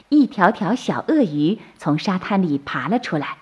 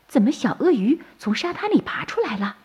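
First: Said in the usual way. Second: Higher-pitched wondering question; puzzled surprise. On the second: A narrator's reading. Turtle mother sees baby crocodiles hatch, puzzled surprise. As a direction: ask it in mild, puzzled amazement.

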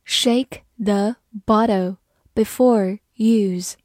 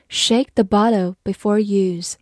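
First: Slow read. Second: Said in the usual way. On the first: Shown as a demonstration. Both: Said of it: "好，慢慢来读".

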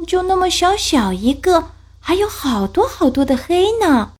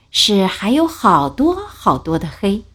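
First: High, small scared cub voice; a worried little cub pleading; little bear voice. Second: Said in the usual way. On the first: Acted.

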